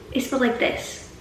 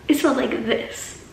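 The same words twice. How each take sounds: The two takes are said the same way.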